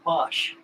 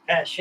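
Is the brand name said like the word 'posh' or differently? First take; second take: posh; differently. First: The name sounds like the word 'posh'. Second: The name is not said like 'posh'. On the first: The speaker calls it wrong. "A lot of guys call it a posh" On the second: The speaker calls it right. "The correct word"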